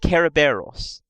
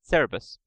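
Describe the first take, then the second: First: It is said the original Greek way. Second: It is said the usual English way. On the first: "That's the original Greek" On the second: "the pronunciation got switched and we pronounced it Cerberus"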